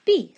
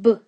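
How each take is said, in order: First: Said in the usual way. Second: "B" said as a short "buh", not "bee"; letter sound. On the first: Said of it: "what letter says B". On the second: Shown as a demonstration. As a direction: give the sound that "B" makes, a brief voiced "buh". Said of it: "What sound does boot begin with".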